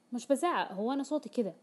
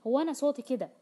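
First: Raised voice. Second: Louder and higher, pushing back; exaggerated raised voice. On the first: Retold or imitated. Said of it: "ويقولها بصوت عال". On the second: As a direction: insist "صوتي" defensively, voice raised high. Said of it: "وسوف يبالغ في تعلية صوته". (بصوت عالٍ مبالغ فيه)

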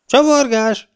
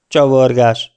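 First: Very high, sustained incredulous squawk; shrieked question. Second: Short, louder one-word reply; curt answer. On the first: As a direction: screech it back in disbelief. (rikoltó, hitetlenkedő visszakérdezés) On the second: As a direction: answer tersely, nothing more. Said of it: "feleltem kurtán". (kurta, tömör válasz) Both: A narrator's reading.

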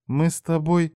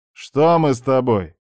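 First: Tentative reply. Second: Pointed question with falling end; challenging question. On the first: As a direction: offer it tentatively, voice lifted. Hesitant girl completing her thought. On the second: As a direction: throw her words back at her. Narrator challenges her hint. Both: Acted.

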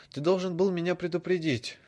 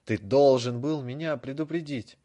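First: High and loud demand; raised voice. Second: Louder, building to a yell; louder shout. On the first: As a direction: push it louder. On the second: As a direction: escalate into shouting. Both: A narrator's reading. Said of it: "Голос Драко становился всё громче".

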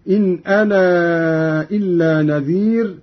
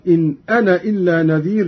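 First: "أنا" with the final aa stretched extra long; longer separated madd. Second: "أنا" cut short as ana, straight into "إلا"; no lengthening on "أنا" before the hamza of "إلا"; dropped alif. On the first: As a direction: hold the alif of "أنا" at length, then "إلا نذير". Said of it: "مدا منفصلا هكذا". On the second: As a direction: recite quickly with a short final a on "أنا". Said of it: "وله الحذف أيضًا". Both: Shown as a demonstration.

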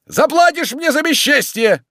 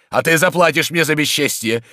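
First: Very high, loud parting scream; yelled threat. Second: Raised, loud warning short of a scream; angry threat. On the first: Tarantyev leaving across the yard, yelled threat. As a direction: yell it back at the house. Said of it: "кричал он, идучи по двору". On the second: Tarantyev turns on Oblomov while leaving, angry threat. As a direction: threaten him firmly on the way out. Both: Acted.

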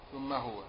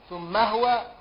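First: "ثم هو" read thumma hwa, ha with sukun; "هو" in "ثم هو" clipped to hwa, no vowel on the ha; "ثم هو" said thumma hwa, lower and softer. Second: "ثم هو" read thumma huwa, ha with fatha; "هو" in "ثم هو" as HU-wa, ha voiced with a vowel; "ثم هو" said thumma huwa, higher. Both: Shown as a demonstration. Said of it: "فتح الهاء وسكونها".

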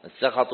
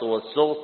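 First: السخط said as "as-sakhat", a after the s; fatha on seen. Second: والسخط said as "was-sukht", u after the s; damma on seen. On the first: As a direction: say السخط with open a vowels, sakhat. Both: Shown as a demonstration. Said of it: "بضم السين وفتحها".

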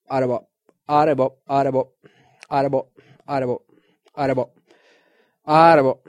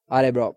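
First: "Arebo" slurred from "ja, det är bra" into one lazy word; sloppy mumble. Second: Said in the usual way. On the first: Shown as a demonstration. Man at the shop counter mumbling his thanks, slurred "Arebo". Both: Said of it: "så slarvigt så att det låter som Arebo".

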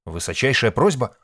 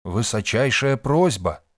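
First: Loud, raised question; puzzled echo. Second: Slow, loud, raised announcement; solemn proclamation. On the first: Nik hearing the term and asking, puzzled. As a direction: repeat it quicker, as a startled question. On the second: Hostess naming the ritual to the men, solemn. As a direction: proclaim it slowly and weightily. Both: A narrator's reading.

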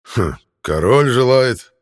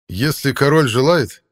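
First: Loud, slow, mocking anger; angry. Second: High, loud, slow heroic call; manly heroic voice. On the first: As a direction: spit the words back in anger. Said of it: "Артур зло". (зло и насмешливо) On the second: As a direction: ring out like a battle horn. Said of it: "красивый мужественный голос Ланселота". (мужественно, как боевой рог) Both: A narrator's reading.

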